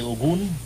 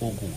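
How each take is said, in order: First: The name ends with an n sound. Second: The name ends without an n sound. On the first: This is how another tradition says the name. "You say Ogun" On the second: This is how the speaker's own tradition says the name. "without the N"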